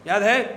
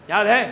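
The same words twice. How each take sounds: The two takes are said the same way.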